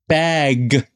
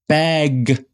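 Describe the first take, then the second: No difference in how they are said.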